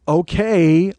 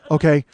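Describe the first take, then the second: First: It is said in a sarcastic tone. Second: It is said in a stiff, frightened tone. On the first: The speaker is mocking the situation. "like sarcastic" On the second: The speaker is too scared to say anything else. "Like he was so frozen"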